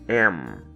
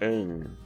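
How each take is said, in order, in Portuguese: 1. A palavra termina com os lábios fechados. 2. A palavra termina sem que os lábios se fechem. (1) "Ao final da pronúncia correta, devemos fechar a boca" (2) "a pronúncia não é am, como muitos alunos iniciantes falam"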